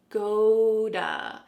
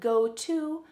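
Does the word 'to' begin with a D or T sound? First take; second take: D; T. First: The word 'to' begins with a D sound. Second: The word 'to' begins with a clear T sound. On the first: "that T is changing to a D" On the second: "Instead of go to"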